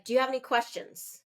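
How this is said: The tone is strong and abrasive. The speaker calls it wrong. "that's a stronger, more abrasive tone"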